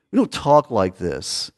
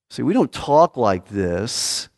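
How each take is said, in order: First: Lower, falling repeat of the point; quieter repeat. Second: Slow, stress on don't; emphatic. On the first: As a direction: let "don't" fall, softer echo. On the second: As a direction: lean hard on "don't", drawn out, rising. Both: Shown as a demonstration.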